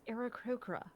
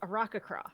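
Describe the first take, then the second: First: The vowels sound soft and gentle. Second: The vowels sound harsh, like a squawking parrot. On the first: The speaker calls it right. "very soft vowels" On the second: The speaker calls it wrong. "that sort of sounds more like a parrot call"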